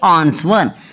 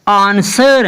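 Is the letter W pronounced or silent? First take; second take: pronounced; silent. First: The W sound is pronounced. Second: The W sound is silent. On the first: The speaker calls it wrong. "ना कि आंसर" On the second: The speaker calls it right. "S के बाद डब्ल्यू हमेशा silent होता है"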